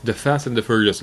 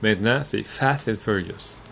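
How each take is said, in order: First: "The Fast and the Furious" with THE said clearly; stress on THE. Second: "Fast and Furious" slow, with FAST leaned on; stress on FAST. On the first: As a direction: give the full title, THE included. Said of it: "Le premier, c'est The Fast and the Furious". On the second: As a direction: stress FAST, no article before it. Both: Shown as a demonstration.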